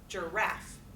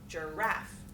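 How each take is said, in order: First: The stress is on the second syllable. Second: The stress is on the second syllable.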